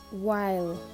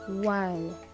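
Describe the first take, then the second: Both takes have the same delivery.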